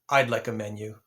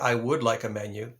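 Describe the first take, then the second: First: The word would is contracted to a d sound. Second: The word would is said in full. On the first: "typically it's a contraction" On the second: "You could also say, ... That's also acceptable"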